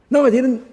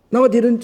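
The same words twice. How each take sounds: First: High, loud indignant denial; defensive denial. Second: High, loud indignant retort; repeated defensive denial. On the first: Imitating a proud person rejecting correction, loud denial. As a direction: snap back a flat denial. Egotist denies fault instantly. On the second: Mimicking the egotist's instant denial, high and loud. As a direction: fire the denial straight back. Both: Retold or imitated.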